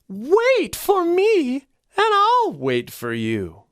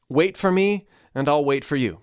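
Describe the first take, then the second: First: The voice moves beyond chest resonance, ranging higher. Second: The voice resonates low, all in the chest. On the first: "I'm going to expand that" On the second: "I'm saying that all in chest resonance right now"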